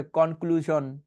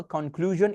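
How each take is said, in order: First: 'কনক্লুশন' with a sh sound; everyday Bengali pronunciation. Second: 'কনক্লুশন' with a voiced zh; actual English sound. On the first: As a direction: say 'কনক্লুশন' with sh, not zh. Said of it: "কনক্লুশনও বলি অনেকে". ('কনক্লুশন' বাংলা শ দিয়ে) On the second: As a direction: say 'কনক্লুশন' as konkluzhon. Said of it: "এইটা আসলে সাউন্ডগুলো কেটে একটু বলে দিই". ('কনক্লুশন' ইংরেজি zh দিয়ে) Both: Shown as a demonstration.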